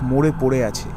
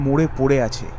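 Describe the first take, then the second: No difference in how they are said.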